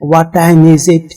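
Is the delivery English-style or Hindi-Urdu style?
Hindi-Urdu style. It is said with a Hindi-Urdu style delivery. The speaker calls it wrong. "ये तमाम अच्छी नहीं होती बातें"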